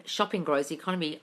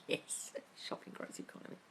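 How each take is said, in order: First: Said in the usual way. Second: Sneaky whisper. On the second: Real, not acted. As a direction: whisper it like a guilty secret. Whispered after rampage over.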